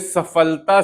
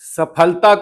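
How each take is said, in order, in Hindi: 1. बीच का व्यंजन f ध्वनि है। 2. बीच का व्यंजन महाप्राण p है। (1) "हमने सफलता से तब्दील कर दिया" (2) "सफलता को"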